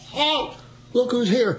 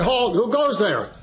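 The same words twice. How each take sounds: First: Repeating the challenge. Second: Correct challenge. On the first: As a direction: proudly repeat the goof for the sergeant. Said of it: "What'd you just say?". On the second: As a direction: give the textbook version firmly. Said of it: "you're supposed to say". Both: Shown as a demonstration.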